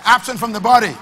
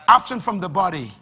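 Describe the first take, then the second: First: Louder call. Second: Said in the usual way. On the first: Shown as a demonstration. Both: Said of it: "I can't hear the church, I say".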